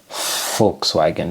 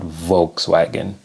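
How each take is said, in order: First: The W is said like a V sound. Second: The W is said like an English W. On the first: The speaker calls it right. "I know it's Witz because V W Volkswagen" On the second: The speaker calls it wrong. "not Volkswagen"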